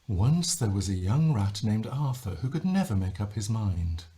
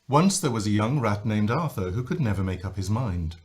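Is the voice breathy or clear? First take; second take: breathy; clear. First: The voice is breathy and light. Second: The voice is clear and strong.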